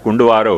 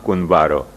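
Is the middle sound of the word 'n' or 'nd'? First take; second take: nd; n. First: The middle consonants are 'nd', as in kundvaro. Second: The middle consonant is a plain 'n', as in kunvaro. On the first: The speaker calls it wrong. "गलती से वह को अशुद्ध उच्चारण कुंडवारो हो गया है" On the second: The speaker calls it right. "वह को नाम कुनवारो"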